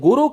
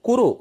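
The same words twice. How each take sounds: First: The word begins with a voiced g sound. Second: The word begins with a voiceless k sound. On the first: The speaker calls it wrong. "அது குரு கிடையாது" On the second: The speaker calls it right. "கே யூ ஆர் யூ"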